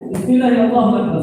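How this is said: It is said in a firm, forceful way.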